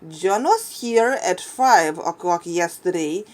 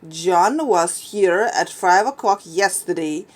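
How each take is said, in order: First: The stress is on the word five. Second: The stress is on the word yesterday.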